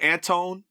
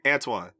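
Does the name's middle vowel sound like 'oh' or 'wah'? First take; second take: oh; wah. First: The name is said with a plain 'oh' vowel. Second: The name is said with a 'wah' vowel. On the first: Others say the name this way. The speaker calls it wrong. "They like Mister Antone" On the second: This is how the name's owner says it. The speaker calls it right. "and I'm like Antoine"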